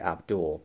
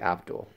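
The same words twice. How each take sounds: First: The name is pronounced the American way. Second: The name is pronounced the British way. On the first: "but in the U S, it would be Abdul" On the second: "In the U K, you would say Abdul"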